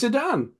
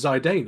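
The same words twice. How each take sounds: First: Zidane said zih-DAN, like the footballer; Zidane with short I and short A; own Zidane pronunciation. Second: Zidane said zy-DANE; Zidane with long I and long A; other people's Zidane. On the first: Shown as a demonstration. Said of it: "I say Zidane". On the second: Retold or imitated. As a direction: rhyme the start of Zidane with "eye": zy-DANE. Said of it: "the people are like".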